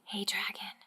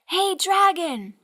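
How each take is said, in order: First: It is whispered very softly. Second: It is shouted very loudly.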